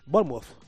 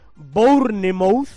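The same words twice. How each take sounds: First: It is said with an English pronunciation. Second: It is read out as it is spelled. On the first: "creo que se pronuncia Bournemouth" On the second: "Se escribe"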